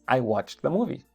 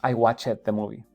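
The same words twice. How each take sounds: First: The ending of 'watched' adds no extra syllable. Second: The ending of 'watched' adds an extra syllable. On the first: The speaker calls it right. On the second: The speaker calls it wrong. "Eso no se dice. Se escucha muy mal"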